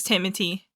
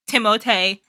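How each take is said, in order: First: Said in the usual way. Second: "Timote" with a T sound in place of TH; playful foreign pronunciation. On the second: Pretend. Reactor teasing the actor by name, "Timote" in mock-foreign form.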